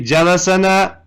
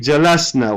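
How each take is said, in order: First: A vowel is heard between the s and n. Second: The s runs straight into the n. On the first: The speaker calls it wrong. "Do we say jalasana? No" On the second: The speaker calls it right. "We say jalasna"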